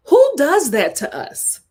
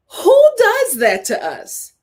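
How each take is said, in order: First: Said in the usual way. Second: "who"拉高、放慢强调; high, slow stress on who. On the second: Shown as a demonstration. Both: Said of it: "repeated question".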